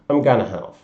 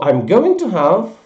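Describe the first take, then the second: First: Going to is reduced to gonna. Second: Going to is said as two full words.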